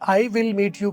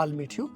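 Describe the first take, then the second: First: I and will are said as separate full words. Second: I and will merge into one short syllable. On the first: "ये I will meet you को" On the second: "कैसे बोला है I'll meet you?"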